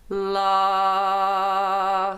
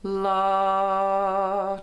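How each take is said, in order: First: The vowel sounds slightly nasal, focused and resonant. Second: The vowel sounds plain, without added nasal focus.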